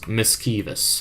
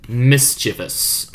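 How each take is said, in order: First: "mischievous" said with a hard k, /mɪskivəs/; "mischievous" with a k in the middle, trailing off; tried another way. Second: "mischievous" slowly as /mɪstʃɪvəs/; slow, careful pronunciation. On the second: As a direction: sound out "mischievous" with a ch sound. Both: Shown as a demonstration. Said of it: "However the fuck you pronounce that".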